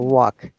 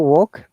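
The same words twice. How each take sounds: First: It is said with an American accent. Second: It is said with a British accent. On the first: "but Americans say walk" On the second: "We say walk"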